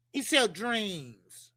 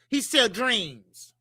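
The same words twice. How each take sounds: First: He sell dreams again, slow and quieter; slow, soft repeat. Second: Slow, drawn-out he sell dreams; slow emphasis. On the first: Repeating the line softly to the listeners, slow and hushed. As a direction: let it sink in, softly and slowly. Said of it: "All right?". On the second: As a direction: lean hard on sell, slowly. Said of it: "Other words". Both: Shown as a demonstration.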